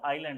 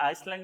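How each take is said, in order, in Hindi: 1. इस शब्द में s की आवाज़ नहीं आती। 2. इस शब्द में s की आवाज़ आती है। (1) "एस साइलेंट होता है" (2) "आइसलैंड नहीं होता"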